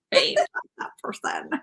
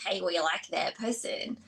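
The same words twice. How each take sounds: First: Whispered creepy echo; mock creepy whisper. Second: Low, soft, slow creepy whisper; creepy inner body voice. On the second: Retold or imitated. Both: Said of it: "That's such a creepy voice".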